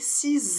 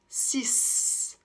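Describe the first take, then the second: First: The word ends with a Z sound. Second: The word ends with an S sound. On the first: A vowel-initial noun follows. "on va faire la liaison en prononçant le X comme un Z" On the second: The number stands alone. "on va prononcer le X comme un S"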